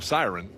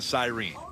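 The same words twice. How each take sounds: First: Siren is pronounced the way Nebraskans say it. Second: Siren is pronounced the way Dawsonville locals say it. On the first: This is how the speaker's home region says it. "coming from Nebraska, would call it a siren" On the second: This is how locals in one town say it. "in Dawsonville, they call it the siren"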